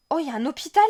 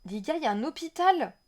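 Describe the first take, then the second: First: Excited discovery. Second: Excited, to viewers. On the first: Discovering a hospital in game. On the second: Repeats it to the viewers. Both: Real, not acted.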